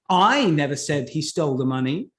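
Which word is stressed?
I. The word "I" carries the strongest stress. Someone else said it. "who said that he stole the money then?"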